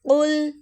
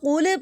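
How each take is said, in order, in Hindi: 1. आख़िरी L बिना किसी झटके के थमा रहता है। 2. आख़िरी L एक तेज़, गूँजता हुआ झटका लेकर ख़त्म होता है। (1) "जहाँ पर सही अदायगी करनी वो ये है" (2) "जो मैंने रोंग पढ़ा है उसके अंदर मैंने अपनी लिसान को फ़ौरन से पीछे हटा लिया है"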